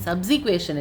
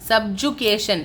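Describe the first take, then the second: First: The second syllable sounds like 'sick'. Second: The second syllable sounds like 'jug'. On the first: The speaker calls it wrong. "சப்சிக்வேஷன் இல்லைடா" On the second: The speaker calls it right.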